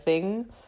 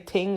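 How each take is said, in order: First: The word starts with a TH sound. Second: The word starts with a plain T sound.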